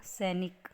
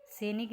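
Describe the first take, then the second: First: सैनिक said as "sainik"; correct pronunciation. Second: सैनिक said as "senik"; closed "e" in सैनिक; wrong pronunciation. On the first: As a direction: open "ai" vowel in सैनिक. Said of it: "आई की मात्रा आएगी". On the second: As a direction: misread सैनिक as se-nik. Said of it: "सैनिक नहीं होता". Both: Shown as a demonstration.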